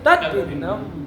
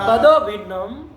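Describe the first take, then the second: First: The first word ends sharply on a 't' sound. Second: A vowel joins the words as 'tado bhinnam'. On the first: It means different from that. The speaker calls it right. "तद भिन्नम नहीं तत् भिन्नम" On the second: It means not different from that. The speaker calls it wrong. "तदो भिन्नम कहोगे तो तत् का अभिन्न"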